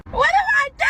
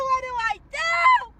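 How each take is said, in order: First: High, loud wail of what do I do; hammed-up anguished shout; desperate cry. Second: High, slow crying shout; hammed-up sob of despair; mock sobbing wail. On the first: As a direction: cry it out like the world is ending. Mock desperate outcry. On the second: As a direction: wail it as if breaking down in tears. Repeated with a cry.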